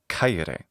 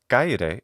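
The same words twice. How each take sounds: First: The first k has a strong puff of air. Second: The first k is plain, without a puff of air. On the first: The speaker calls it right. "it should be kaire" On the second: The speaker calls it wrong. "instead of kaire"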